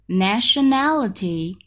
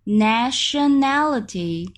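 The two takes are said the same way.

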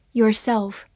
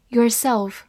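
Both takes have the same delivery.

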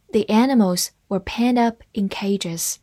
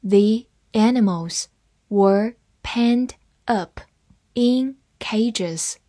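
First: Said in the usual way. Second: Slow, careful phrase-by-phrase reading; teacher slowing down so students can follow. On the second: Shown as a demonstration. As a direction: break it into chunks and read each one slowly. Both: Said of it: "好，慢慢来读".

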